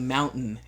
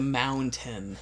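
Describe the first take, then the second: First: The middle T is dropped, Utah style. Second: The middle T is clearly pronounced.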